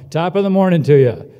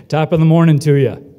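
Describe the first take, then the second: First: A cheery shout-out waiting for the reply; loud greeting call again. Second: A cheery shout-out to the whole hall; loud Irish greeting call. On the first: Host calls to students for their response, loud cheery greeting. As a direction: belt it out loud to the room so they answer. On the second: Host calls out to the graduating class, loud cheery greeting. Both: Pretend.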